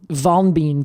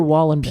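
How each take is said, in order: First: The last syllable is said like 'bine'. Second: The last syllable is said like 'ben'. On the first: The speaker calls it right. "I think it's actually like um, Wallenbein" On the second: The speaker calls it wrong. "we're pronouncing that horrifically Americanly"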